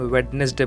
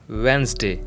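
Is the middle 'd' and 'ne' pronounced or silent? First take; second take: pronounced; silent. First: The middle 'd' and 'ne' are pronounced. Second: The middle 'd' and 'ne' are silent. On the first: The speaker calls it wrong. "But ये गलत है" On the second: The speaker calls it right. "डी and ई letter silent रहेगा"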